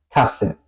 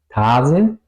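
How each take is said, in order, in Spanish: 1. La primera vocal es corta. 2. La primera vocal es larga. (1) "La A corta" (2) "No digo Wasser ni Tasse"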